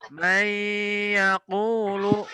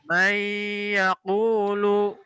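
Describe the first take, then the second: First: The n merges into y with a nasal hum. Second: The n merges into y with a nasal hum.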